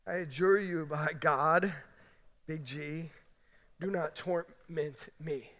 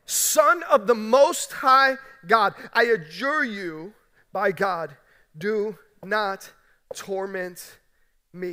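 First: Soft, low, slow pleading demon; the demon begs quietly and slowly, afraid; quiet demon plea. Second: Loud, slow, drawn-out cry of a demon; the demon cries out loud and slow, pleading. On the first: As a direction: hush it down to a fearful murmur. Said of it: "The demon said". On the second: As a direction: cry it out slowly with full force, begging. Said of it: "cries out again with a loud voice". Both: Acted.

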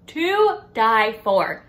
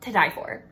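First: To die for, slow and louder, every word leaned on; drawn-out emphasis. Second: Said in the usual way. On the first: Real, not acted. Reviewer gushing over the rituals, slow and louder on To die for.

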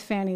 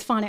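First: Fanny as FAN-ee, deliberately. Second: Fani as FAH-nee. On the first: Host stubbornly keeps Fanny as FAN-ee. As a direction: keep saying Fanny as FAN-ee. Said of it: "I'm gonna keep going with Fanny". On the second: Host repeats the correct name, Fani as FAH-nee. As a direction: say Fani with an ah sound. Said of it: "So you got it. It's Fani". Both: Shown as a demonstration.

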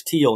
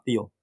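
First: Thiel with a plain T, like "teel"; corrected pronunciation, hard T. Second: Thiel starting with th as in "thin"; mispronounced with TH. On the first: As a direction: correct it to Thiel with a crisp T at the start. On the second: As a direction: show the mistaken Thiel, said "theel". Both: Shown as a demonstration. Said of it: "correct my pronunciation".

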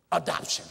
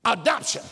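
First: Said in the usual way. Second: "Adoption" louder with a rising tune; questioning repeat. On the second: Shown as a demonstration. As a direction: lift "Adoption" up at the end.

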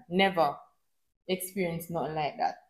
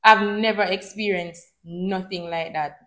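First: Much softer, lower repeat of the phrase; soft echo. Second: Said in the usual way. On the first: Shown as a demonstration. Vlogger repeats her point to viewers, much softer and lower. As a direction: let the repeat fall away quietly, for emphasis. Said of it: "repeated softer for emphasis". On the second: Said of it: "first of repeated statement".

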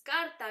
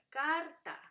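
First: Said in the usual way. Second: "carta" as car, pause, ta; "carta" in two separate, deliberate beats; split into syllables. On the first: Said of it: "se divide". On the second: Shown as a demonstration. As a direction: break "carta" after the r, first beat high. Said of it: "se divide. Sería".

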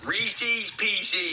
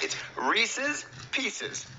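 First: High-pitched "Reese's Pieces" as "reesees peesee"; wrong pronunciation. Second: "Reese's Pieces" slow and high, short "i" endings, "reesiz, peesiz"; correct pronunciation. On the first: Kid repeats after dad's correction, still mispronounced. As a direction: get "Reese's Pieces" wrong with long "ee" endings. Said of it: "stop changing the name of it". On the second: Dad demonstrates the right candy name, slow correction. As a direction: spell out "Reese's Pieces" slowly, word by word. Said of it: "you had the Reese's part right". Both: Acted.

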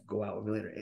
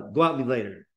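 First: Softer, words flowing together; soft connected speech. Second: Said in the usual way. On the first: Shown as a demonstration. Teacher demos the flowing version, softer. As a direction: let "go out with me later" run together quietly.

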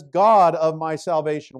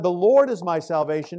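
First: "God" struck louder, tune falling after it; stress on GOD. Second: "Lord" lifted and held, rising at the close; stress on LORD. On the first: Preacher showing David's shift to Elohim, stress on "God". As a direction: punch "God" hard and let the rest fall. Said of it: "Now in verse nine, he says". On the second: Preacher contrasting the covenant name, stress on "Lord". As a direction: lean on the word "Lord" with a lift. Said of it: "This is a shift". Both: Shown as a demonstration.

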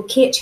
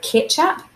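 First: Ketch said slowly on its own; syllable isolated. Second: Said in the usual way. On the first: Shown as a demonstration. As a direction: stretch out ketch, slow. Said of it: "has that E sound".

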